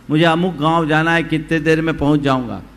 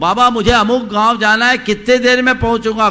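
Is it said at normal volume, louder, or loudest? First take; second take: louder; loudest. First: It is called out somewhat louder. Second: It is called out loudest of all.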